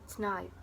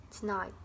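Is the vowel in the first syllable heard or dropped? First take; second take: dropped; dropped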